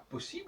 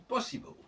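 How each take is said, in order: First: It is pronounced the French way. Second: It is pronounced the English way. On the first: "il ne dit pas possible" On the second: "il dit possible"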